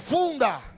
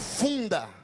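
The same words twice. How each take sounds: First: The word is said loudly and forcefully. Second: The word is said at normal volume.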